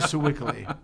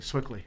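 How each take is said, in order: First: The name is said with three syllables. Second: The name is said with two syllables. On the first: This is how outsiders say the name. The speaker calls it wrong. "We don't say Sewickley" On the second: This is how locals say the name. The speaker calls it right. "We say Swickly"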